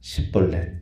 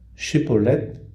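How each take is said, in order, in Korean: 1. 이 단어는 's' 소리로 시작해요. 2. 이 단어는 'sh' 소리로 시작해요. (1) "시볼렛 이렇게 발음을 하면 너는 에브라임 지파다" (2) "쉬볼렛이라 말해보라고 이야기를 해요"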